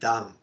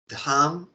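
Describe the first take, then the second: First: The d sound is plain, without a puff of breath. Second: The d sound has a puff of breath. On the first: The speaker calls it wrong. "dam is another meaning" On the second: The speaker calls it right. "we have to pronounce as dham"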